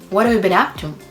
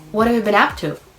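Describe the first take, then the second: First: The words run together with reductions. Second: The same.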